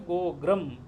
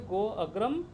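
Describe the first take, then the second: First: The 'a' after 'go' is dropped. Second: The 'a' after 'go' is clearly pronounced. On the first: The first vowel absorbs the following one. "पूर्व रूप होने से" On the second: The two words keep their natural form without merging. "प्रकृति भाव होने से"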